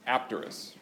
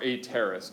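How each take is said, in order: First: The P before the T is clearly sounded. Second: The P before the T is left silent. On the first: "depending on whether or not you pronounce the P" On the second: "depending on whether or not you pronounce the P"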